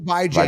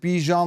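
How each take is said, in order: First: The second syllable rhymes with ran. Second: The second syllable rhymes with Dijon. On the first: "bi as in bi-weekly... Jan as in ran" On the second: "he wants to pronounce it Bijan like the mustard"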